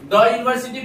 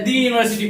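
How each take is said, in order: First: 'The' is said with a short 'thuh' vowel. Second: 'The' is said with a long 'thee' vowel. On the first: The speaker calls it right. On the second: The speaker calls it wrong. "ना कि दी पढ़ेंगे।"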